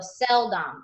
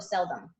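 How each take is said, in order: First: The second syllable has a full short o vowel. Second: The second syllable has a reduced schwa vowel. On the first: The speaker calls it wrong. "sound out a word really phonetically" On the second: The speaker calls it right. "immediately correct it"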